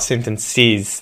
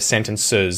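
First: The last syllable has a clear 'ih' vowel. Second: The last syllable has a schwa vowel. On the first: "It's the last vowel" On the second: "instead of the schwa sound"

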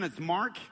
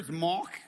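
First: It is said in an American accent. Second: It is said in a South African accent.

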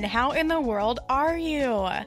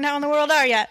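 First: The phrase is said at a slower pace. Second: The phrase is said at a faster pace.

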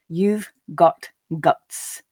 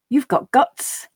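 First: The sentence is spoken slowly. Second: The sentence is spoken at a natural pace. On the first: "the first time slowly for you to grasp the meaning" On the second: "the second and third time at that more natural pace"

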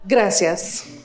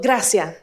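First: It is said with the final S pronounced. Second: It is said in Cuban Spanish, dropping the S.

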